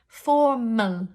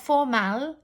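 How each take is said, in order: First: The second vowel is a reduced uh sound. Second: The second vowel is a full vowel. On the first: The speaker calls it right. "m, uh" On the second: The speaker calls it wrong. "not formal"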